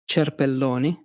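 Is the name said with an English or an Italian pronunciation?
Italian. The name is said with an Italian pronunciation. "but in Italian, it's"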